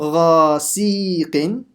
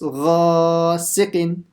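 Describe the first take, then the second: First: The middle syllable is stretched out long. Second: The middle syllable is said short and quick. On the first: The speaker calls it wrong. "I stretched it, didn't I? So it's not ghasiqin" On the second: The speaker calls it right. "Everything else has to be quick"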